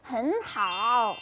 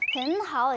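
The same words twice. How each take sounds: First: The end of the phrase is curled. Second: The end of the phrase is said plainly.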